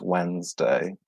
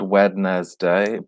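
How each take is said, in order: First: The word is said in a shorter, reduced form. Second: Every written part of the word is pronounced. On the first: The speaker calls it right. "but it's pronounced Wednesday" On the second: The speaker calls it wrong. "So it's spelled Wednesday"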